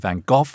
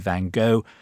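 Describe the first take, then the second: First: The name is said the English way. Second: The name is said the American way. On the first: "The English, of course, say Van Gogh" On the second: "The Americans say Van Gogh"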